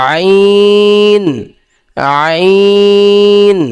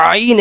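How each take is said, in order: First: আইন drawn out long from mid-throat; throat letter demo. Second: আইন said short and flat, the way to avoid; wrong way shown. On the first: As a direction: stretch আইন, pressing from the middle of the throat. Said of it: "যেমন কি?". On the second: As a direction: clip আইন without throat pressure. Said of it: "এরম বলা যাবে না". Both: Shown as a demonstration.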